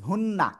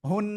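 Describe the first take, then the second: First: The word ends with an open vowel. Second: The word ends on a held nasal hum. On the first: The reading continues without stopping. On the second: The reading stops on this word.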